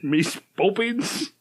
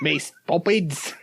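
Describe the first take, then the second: First: Slow fake cockney, rising at the end; hammed-up cockney with a rising tune; bad cockney accent. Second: Slow, drawn-out mock cockney; a hint of a hammy cockney; bad cockney accent. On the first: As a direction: echo it back in a bad cockney. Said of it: "Yours is bad enough". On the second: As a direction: stretch it out in fake cockney. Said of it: "his bad accent".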